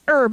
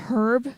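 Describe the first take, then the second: First: The word starts with a vowel, no H. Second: The word starts with an audible H sound. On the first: "you pronounce it herb" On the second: "actually pronouncing the H"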